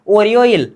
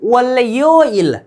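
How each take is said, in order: First: The second consonant is an r sound. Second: The second consonant is an l sound. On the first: The speaker calls it right. "क्या उच्चारण होनी चाहिए" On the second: The speaker calls it wrong. "अब ऐसा नहीं करना कि"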